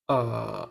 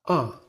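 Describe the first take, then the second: First: The pitch dips down and then rises. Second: The pitch falls quickly and strongly. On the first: "The third tone is like a valley" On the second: "Your voice should also fall quickly and strongly"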